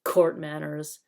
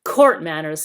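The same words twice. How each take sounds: First: Sneering. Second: Loud mocking sneer, court manners spat out; sneering louder. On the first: Acted. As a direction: sneer the words court manners. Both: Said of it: "sneered Nickabrick".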